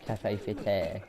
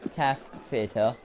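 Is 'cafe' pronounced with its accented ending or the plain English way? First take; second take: accented; English. First: Cafe is said with its accented ending. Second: Cafe is said the plain English way. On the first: "obviously it's got like the accent" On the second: "The English pronunciation would be"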